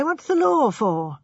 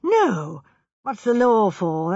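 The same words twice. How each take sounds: First: The same line higher and slower, building outrage; rising indignation. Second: A touch of injured outrage, slow; lightly put-on virtuous protest, slowed down; mild indignation. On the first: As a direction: repeat it with hammed-up righteous anger, pitched up. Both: A narrator's reading. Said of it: "He assumed virtuous indignation".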